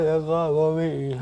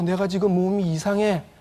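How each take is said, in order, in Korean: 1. 단어들이 어눌하게 발음됩니다. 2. 단어들이 분명하게 발음됩니다. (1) "발음이 셉니다" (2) "이렇게 얘기를 하고 싶습니다"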